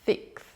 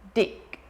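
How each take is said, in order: First: The first sound is a long lisped hiss. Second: The first sound is a short stopped d. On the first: The speaker calls it right. "with the lisp" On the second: The speaker calls it wrong. "stop the sound or shorten the sound to a plosive D"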